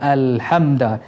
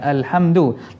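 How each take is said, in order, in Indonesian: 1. Kata ini berakhir dengan vokal 'a'. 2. Kata ini berakhir dengan vokal 'u'. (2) "Kita baca dengan baris depan"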